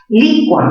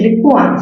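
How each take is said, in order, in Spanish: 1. El acento cae en la sílaba li. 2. El acento cae en la vocal u. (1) "mayor fuerza ¿dónde? En li" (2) "la cerrada con mayor fuerza de voz"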